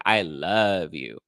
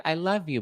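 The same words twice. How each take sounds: First: Imitating a slow, low declaration of love; slow, heartfelt mock confession; lovestruck. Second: Imitating a casual, higher-pitched "I love you"; higher, quicker, uncommitted mock declaration; friendly, platonic. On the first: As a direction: draw out LOVE as if deeply meant. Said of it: "And to her, she's like". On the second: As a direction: toss it off lightly, as to a friend. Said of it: "like, a friend".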